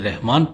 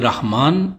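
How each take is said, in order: First: The vowel after the R is an 'i'. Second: The vowel after the R is an 'a'. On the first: The speaker calls it wrong. "रा पर जेर के साथ" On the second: The speaker calls it right. "रा पर जेर की बजाय ज़बर से"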